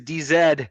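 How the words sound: The last letter is pronounced zed. This is the British way of naming the letter. "I do sport the Queen's English"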